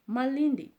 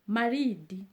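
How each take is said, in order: First: It has an L and an N before D. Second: It has an R and a plain D. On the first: This is the usual non-Kikuyu form of the name. "like I'm saying Malindi" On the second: This is how the name is said in Kikuyu. "When I have to say that in Kikuyu"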